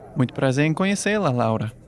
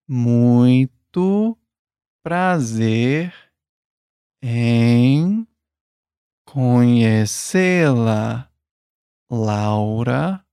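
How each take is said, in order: First: It is said at normal speed. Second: It is said slowly.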